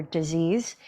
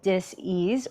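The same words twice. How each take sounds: First: Said in the usual way. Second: DIS-EASE as two separate words, dis and ease; split into two words. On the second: Shown as a demonstration. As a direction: break "dis-ease" apart so that "ease" stands out. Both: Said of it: "dis-ease or disease".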